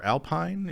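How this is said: It is said with a North American pronunciation.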